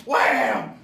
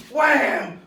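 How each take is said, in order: First: Low loud thud; mock whack sound. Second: High loud smack; mock whack sound. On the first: Imitating Pat hitting the ground, a low loud wham. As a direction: punch out a pitchfork thud. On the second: Imitating Pat hitting the ground, a higher louder wham. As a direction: hit the wham up high and hard.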